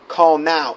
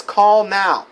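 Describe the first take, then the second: First: Said in the usual way. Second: Higher and louder, pressing plea; urgent begging. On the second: Retold or imitated. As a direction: beg them to call, right now. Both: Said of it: "She's begging this".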